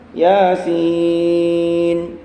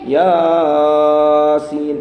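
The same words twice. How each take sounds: First: The vowel is held at a normal short length. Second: The vowel is drawn out too long. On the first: The speaker calls it right. "Mestinya cukup dengan mat tabi'i" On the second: The speaker calls it wrong. "masih banyak yang kepanjangan"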